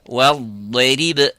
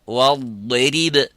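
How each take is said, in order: The two takes are said the same way.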